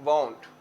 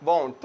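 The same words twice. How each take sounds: First: Said in the usual way. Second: Won't drawn out long in the middle; won't with a lengthened vowel; stretched won't. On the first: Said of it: "थोड़ा सा stretch करके बोलते हैं". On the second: Shown as a demonstration. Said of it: "थोड़ा सा stretch करके बोलते हैं won't".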